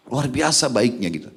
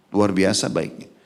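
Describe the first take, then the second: First: Biasa carries the weight, falling at the end; stress on biasa. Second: Slow, deliberate repeat, "Luar" leading; stress on luar, slower. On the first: Preacher praising the Prophet's character, stress on biasa. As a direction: lean on "biasa" in "Luar biasa baiknya". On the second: Preacher repeating his praise to the congregation, slow and weighty. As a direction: drag it out, hitting "Luar". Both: Shown as a demonstration.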